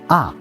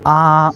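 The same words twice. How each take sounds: First: The pitch falls sharply from high to low. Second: The pitch stays level and flat. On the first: "Last tone going down" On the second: "first tone is flat"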